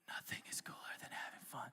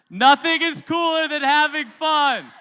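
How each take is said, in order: First: It is spoken in a whisper. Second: It is yelled very loudly.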